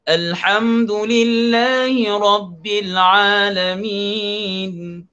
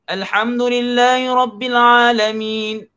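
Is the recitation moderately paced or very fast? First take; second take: moderately paced; very fast. First: It is recited at a moderate, slightly quick pace. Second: It is recited at a very fast pace. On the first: This is the speed suited to leading prayer. "itu secara tadwir" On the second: This is the fastest reading speed, still keeping the rules. "nama dia hadar, paling laju"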